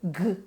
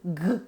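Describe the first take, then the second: First: The consonant is a hard g sound. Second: The same.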